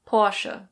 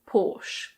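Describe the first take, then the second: First: It is said in a German accent. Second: It is said in a British accent. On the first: "In German, this is pronounced Porsche" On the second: "In British English, it's Porsche"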